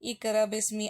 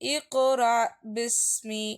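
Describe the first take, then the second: First: The q sound is plain, without any echo. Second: The q sound is bounced with a short echo. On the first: The speaker calls it wrong. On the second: The speaker calls it right.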